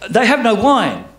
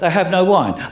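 First: It is said demandingly, expecting action. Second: It is said casually, in passing.

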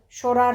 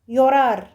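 First: The double L sounds like 'sh'. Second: The double L sounds like 'y'.

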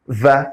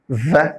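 First: It is said as the bare consonant sound. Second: The same.

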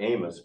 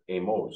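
First: The name is said with English pronunciation. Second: The name is said with Spanish pronunciation. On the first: The speaker calls it wrong. "not Amos" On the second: The speaker calls it right. "but AMOS. Is that right? Spanish"

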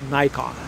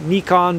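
First: The name is said the American way. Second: The name is said the Japanese way. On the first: "since I'm an American, more or less, I'll go ahead and call it Nikon" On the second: "for people here in Japan, they call it Nikon"

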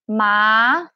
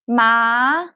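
No difference in how they are said.

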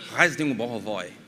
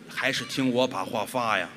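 First: It is spoken quickly, blurred like a foreign language. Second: It is spoken slowly, each syllable clearly separated.

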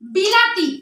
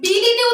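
First: The second vowel is an a sound. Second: The second vowel is an i sound. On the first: "বিলাতি যেটা হওয়ার কথা" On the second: "বিলিতি উচ্চারণ করে থাকি"

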